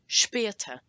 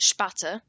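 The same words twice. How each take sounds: First: The first vowel sounds like 'eh' from the umlaut. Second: The first vowel is a plain 'ah' sound. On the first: The speaker calls it right. "if you say it smoothly as though it's got an E on the end" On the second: The speaker calls it wrong. "that is wrong"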